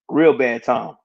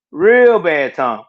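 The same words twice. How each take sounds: First: Said in the usual way. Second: Real bad time, slow and weighty; slow emphatic repeat. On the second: Real, not acted. Telling viewers how bad that time was, a slow weighty repeat. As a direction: lean on each word of Real bad time, slowly. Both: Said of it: "man, that was a bad time".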